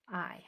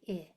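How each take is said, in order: First: The vowel is long, like the letter's name. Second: The vowel is short, as in the word it. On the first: The speaker calls it wrong. "it forces it to say its name" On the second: The speaker calls it right. "I is a short vowel"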